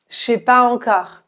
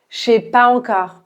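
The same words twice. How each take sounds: First: Je and sais merge into a single syllable, chez. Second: The same.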